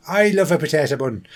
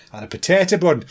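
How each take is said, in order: First: A playful hint of an Irish brogue; Irish accent. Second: Quick mock Irish accent on "potato bun"; lightly put-on Irish lilt for the punchline. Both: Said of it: "do a potato thing in an Irish accent".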